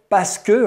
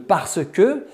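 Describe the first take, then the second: First: It is shortened, with syllables dropped. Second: It is said in full with every syllable.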